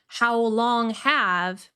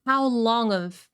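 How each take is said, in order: First: Slow "how long have" with a clear h and full vowel. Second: "How long of" with have sounding like "of"; reduced have. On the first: Teacher showing the unreduced form. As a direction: pronounce "how long have" slowly and fully. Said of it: "So not". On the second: Teacher imitating the speaker's reduced form. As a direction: say "have" as a quick "of". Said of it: "but he says". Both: Shown as a demonstration.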